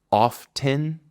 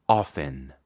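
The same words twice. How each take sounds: First: Often with a clear T, pitched higher; crisp often with the T; T pronounced. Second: Often as ofen, pitched lower; soft T. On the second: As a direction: drop the T to ofen. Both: Shown as a demonstration. Teacher contrasts T and no T. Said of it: "¿O escuchas, mejor dicho?".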